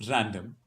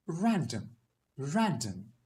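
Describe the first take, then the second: First: Everyday Indian accent on "random"; Indian English accent. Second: "random" in British RP; British RP demo, higher fall on "random"; British accent. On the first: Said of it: "in Indian English". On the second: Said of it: "in a British accent". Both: Shown as a demonstration.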